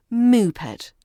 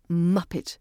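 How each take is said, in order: First: "moopet" with a long oo in the first syllable; slow "moopet", stretched oo; wrong pronunciation. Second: "muppet" with a short uh, cut short; clipped muppet. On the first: Teacher showing what not to say, "moopet" with drawn-out oo. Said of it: "not moopet". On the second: Teacher correcting the vowel, "muppet" said short and clipped. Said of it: "Muppet should sound clipped". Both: Shown as a demonstration.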